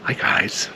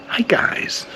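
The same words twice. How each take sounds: First: Said in the usual way. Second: Hi guys jumping way up in pitch; chirpy youtuber hi guys; high bright hi guys. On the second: Shown as a demonstration. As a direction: hi guys tried out high and breathy. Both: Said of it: "try and do the guys thing".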